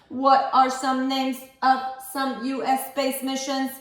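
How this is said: It is said in a put-on robotic voice.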